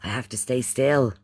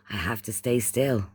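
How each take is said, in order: Both takes have the same delivery.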